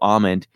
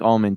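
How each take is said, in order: First: The L sound is left out. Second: The L sound is clearly pronounced. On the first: The speaker calls it wrong. "You can't just go almond" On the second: The speaker calls it right. "it's got an L in there. You got to pronounce the the L"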